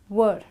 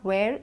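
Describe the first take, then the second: First: It is pronounced as the plain word 'were'. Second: It is pronounced like the word 'where'. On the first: The speaker calls it right. "it's were" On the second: The speaker calls it wrong. "a lot of people pronounce this as where. It's not where"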